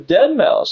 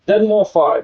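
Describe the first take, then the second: First: The name ends with the word mouse. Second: The name ends with the word five. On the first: The speaker calls it right. "It's pronounced dead mouse" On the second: The speaker calls it wrong. "I think that's how you say it"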